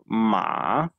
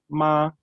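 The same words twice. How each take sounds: First: The syllable has a low dipping pitch. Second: The syllable has a high level pitch. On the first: It means horse. "to jest horse" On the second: It means mother. "to jest matka"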